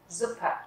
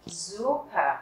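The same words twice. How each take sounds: First: Suppe with a short, quick U. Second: Suppe with the U wrongly drawn out, "Suuupe"; wrong long U. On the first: Teacher correcting the long vowel, short-U demo. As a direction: keep the U in "Suppe" brief before the double P. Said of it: "thì các bạn sẽ đọc ngắn nó lại". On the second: Teacher showing how not to say it, long-U mistake. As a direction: stretch the U in "Suppe". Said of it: "Mình không đọc là Suppe". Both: Shown as a demonstration.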